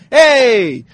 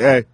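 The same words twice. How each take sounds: First: It is said in a cheerful, upbeat way. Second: It is said in a flat, cranky way.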